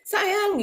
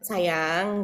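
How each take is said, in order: First: It is said firmly and forcefully. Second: It is said low, soft and tender. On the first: It sounds dominating and startling. "Kalau ini kayaknya sayang gitu" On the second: It is an ordinary affectionate address. "agak rendah, agak gimana gitu ya, menyentuh gitu"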